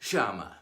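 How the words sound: The word is said in an Argentine Spanish accent. "Argentina and Uruguay"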